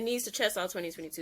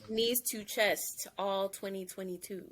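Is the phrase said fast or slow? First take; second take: fast; slow. First: The phrase is said quickly. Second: The phrase is said slowly. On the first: "you went by that really quickly" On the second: "say that that whole mantra slower"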